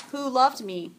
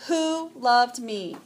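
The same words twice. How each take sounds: First: Said in the usual way. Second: "Who loved me?" drawn out slowly, every word weighted; slow emphatic who loved me. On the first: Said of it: "the three words". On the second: Shown as a demonstration. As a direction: linger on "Who loved me?" so each word lands. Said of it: "but those three words".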